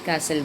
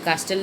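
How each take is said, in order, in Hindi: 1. t आवाज़ silent होती है। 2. t आवाज़ साफ़ बोली जाती है। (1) "टी जो होता है वो साइलेंट होता है" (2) "हम इसे कास्टल नहीं बोलते"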